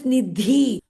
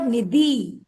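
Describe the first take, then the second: First: The middle consonant is said with a breathy puff. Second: The middle consonant is said without a breathy puff. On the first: The speaker calls it right. "Her name is Nidhi" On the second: The speaker calls it wrong. "Her name is not Nidhi"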